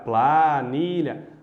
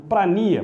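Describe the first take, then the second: First: It starts with 'pla' and keeps the 'lh' sound. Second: It starts with 'pra' and the 'lh' sound is dropped. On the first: The speaker calls it right. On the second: The speaker calls it wrong.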